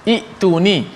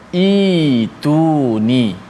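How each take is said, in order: First: A glottal stop follows the short first vowel. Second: The first vowel is a long i, no stop. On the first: The speaker calls it wrong. "tapi tidak dibaca dengan i'tuni" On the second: The speaker calls it right. "dibaca dengan ituni"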